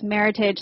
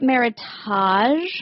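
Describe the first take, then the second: First: It is said to rhyme with heritage. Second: It is said with a French-style ending. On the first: The speaker calls it right. "It's Meritage, like heritage" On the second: The speaker calls it wrong. "you don't say it Meritage. Most places are like, it's French Meritage"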